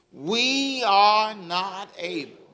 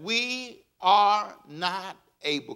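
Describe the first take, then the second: First: Slow, drawn-out, leading the crowd. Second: Slow, drawn-out call for the congregation; slow reading. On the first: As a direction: draw it out and wait for them. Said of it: "Come on, say". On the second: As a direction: stretch each word so they can follow. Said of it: "Can you read that with me". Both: Shown as a demonstration.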